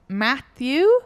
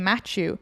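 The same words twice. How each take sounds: First: The name is said with a non-Irish pronunciation. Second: The name is said with an Irish pronunciation. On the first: This is how the man himself says his name. "his name is Matthew" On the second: This is how people in Ireland say the name. "in Ireland we say Matthew"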